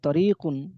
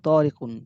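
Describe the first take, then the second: First: The second vowel is drawn out long. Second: The first vowel is drawn out long. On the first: It means a road. The speaker calls it wrong. "আমি যদি উচ্চারণ করি তরিকুন, তাহলে এটা ... রাস্তা হয়ে যাবে" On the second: It is a person's name. The speaker calls it right. "এগুলো উচ্চারণ করার সময় বলতে হবে তরিকুন"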